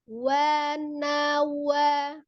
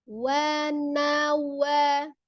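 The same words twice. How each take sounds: Both takes have the same delivery.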